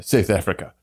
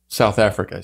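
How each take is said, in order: First: Lightly imitated South African accent. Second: Said in the usual way. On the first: Shown as a demonstration. American echoing how South Africans say it, South African accent. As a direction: tighten the vowels like a South African.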